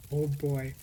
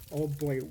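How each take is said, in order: Both takes have the same delivery.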